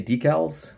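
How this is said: The word is said the American way. "I say decals. Over here in the U S of A"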